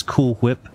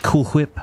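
First: "Cool Whip" with a breathy H before the W, hwip; heavy H sound. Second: "Cool Whip" with a strong aspirated H, hwip; heavy H sound. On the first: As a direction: say "Whip" as hwip, pushing air on the H. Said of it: "put very heavy emphasis on the H". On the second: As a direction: blow the H before the W in "Whip". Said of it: "very heavy emphasis on the H". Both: Retold or imitated.

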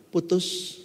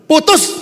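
First: Said in the usual way. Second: Loud, high "Putus" bursting out; exasperated shout. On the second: Retold or imitated. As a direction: snap it out, fed up at last. Third time, mentor loses patience.

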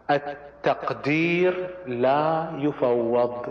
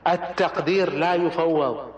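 First: التقدير لا يفوض drawn out very slowly, each word weighed; slow emphatic maxim. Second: التقدير لا يفوض repeated at a measured, steadier pace; firm restatement. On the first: Lecturer stamping his key maxim on leaders, very slow and weighty. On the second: Lecturer repeating his maxim to close the point, firm and measured. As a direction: restate التقدير لا يفوض firmly but less drawn out. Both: Shown as a demonstration.

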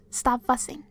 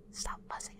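First: Said in the usual way. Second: Creepy hushed whisper. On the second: Pretend. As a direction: breathe it like a menacing secret. Sudden creepy whisper to prey.

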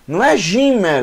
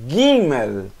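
First: Gimel with soft j sound, ʒimel; wrong soft g. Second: Gimel with a hard g, gimel. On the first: Teacher showing the wrong reading of Gimel. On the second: Teacher giving the right hard-g Gimel. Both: Shown as a demonstration. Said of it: "não Gimel, Gimel".

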